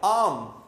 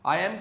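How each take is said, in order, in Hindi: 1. दोनों शब्द मिलकर एक अक्षर बन जाते हैं। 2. दोनों शब्द अलग-अलग बोले जाते हैं।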